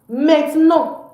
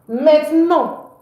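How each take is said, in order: The two takes are said the same way.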